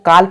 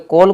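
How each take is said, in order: First: The vowel is an open 'ah' sound. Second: The vowel is a rounded 'aw' sound. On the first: The speaker calls it wrong. "काल पढ़ते हो तो उसका अभी meaning नहीं निकलेगा" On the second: The speaker calls it right. "कॉल को"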